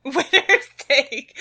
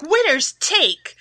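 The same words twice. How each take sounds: First: Slow, high echo through laughter; laughing, drawn-out repeat; amused mimicry. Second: Slow, high-pitched proclamation; drawn-out, emphatic motto delivery; assertive slogan. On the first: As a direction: mimic the slogan while cracking up. GM laughingly echoes player's odd slogan. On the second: Acted. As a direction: declare it with mock assertiveness. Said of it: "try to say that with some assertiveness".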